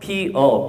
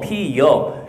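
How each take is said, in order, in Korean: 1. 마지막 모음은 평범한 'eo' 소리입니다. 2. 마지막 모음 앞에 'y' 활음이 옵니다. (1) "피어가 맞지만" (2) "피여라고 발음하는 것도 허용을 해요"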